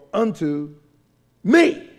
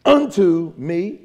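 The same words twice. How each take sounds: First: "unto" held back, pause, ME high and loud; slow, with a big punch on me; stress on me. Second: UNTO punched loud, me lighter and rising; slow, heavy "unto", then questioning "me"; stress on unto. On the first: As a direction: set up "unto", then blast "me". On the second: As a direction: hit "unto" hard. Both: Shown as a demonstration. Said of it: "Is the emphasis of the text".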